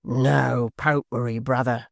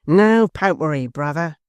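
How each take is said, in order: First: Hangman's cry. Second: Loud, higher shout of "No popery"; Hugh's loud reply. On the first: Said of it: "cried the hangman". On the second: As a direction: throw it back louder. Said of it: "responded Hugh". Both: A narrator's reading.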